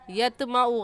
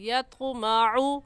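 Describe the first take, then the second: First: The t is a plain, light t sound. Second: The t is a heavy, emphatic t sound. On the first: The speaker calls it wrong. "त्वा की जगह ता पढ़ना। यतमाउ यतमाउ गलत है" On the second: The speaker calls it right. "सही है यत्कु यत्माउ"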